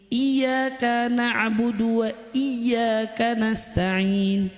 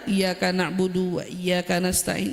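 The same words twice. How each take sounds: First: The doubled consonants are pressed and held. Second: The doubled consonants are said flat, not held. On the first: The speaker calls it right. "ada penekanan" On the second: The speaker calls it wrong. "Itu nggak boleh dibaca datar"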